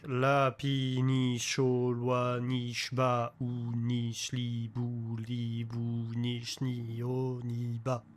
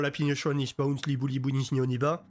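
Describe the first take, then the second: First: It is said very slowly, syllable by syllable. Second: It is said very fast without breaks. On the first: "even when you're super slow at the end" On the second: "you pronounce it initially super fast and without making any break for words"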